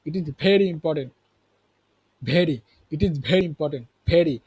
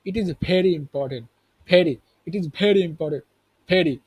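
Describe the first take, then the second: No difference in how they are said.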